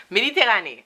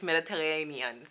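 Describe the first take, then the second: First: Mediterranean as "meh-dee-teh-RAH-nee", high and loud; raised, punchy "meh-dee-teh-RAH-nee" for Mediterranean; non-English pronunciation. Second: Mediterranean as "med-ih-teh-RAY-nee-un", softer; English "med-ih-teh-RAY-nee-un" for Mediterranean; English pronunciation. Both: Shown as a demonstration. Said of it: "can't say it in English".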